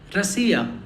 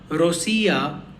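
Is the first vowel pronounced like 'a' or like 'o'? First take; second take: a; o. First: The first vowel sounds like a reduced 'a'. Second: The first vowel sounds like a full 'o'. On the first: The speaker calls it right. "but Rasia" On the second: The speaker calls it wrong. "It's not Rosia"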